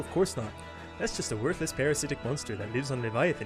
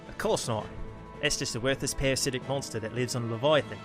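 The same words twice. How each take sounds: First: It is spoken in a Canadian accent. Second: It is spoken in an Australian accent. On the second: "Apologies to the nation of Australia"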